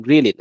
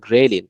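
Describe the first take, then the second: First: গ্রিলিন with an "ee" vowel, gri-lin; common mispronunciation. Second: গ্রেলিন with an "e" vowel, gre-lin; correct pronunciation. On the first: Teacher to students, first says গ্রিলিন as gri-lin. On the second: Teacher correcting students, says গ্রেলিন as gre-lin. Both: Shown as a demonstration. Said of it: "সঠিক উচ্চারণ হচ্ছে গ্রেলিন".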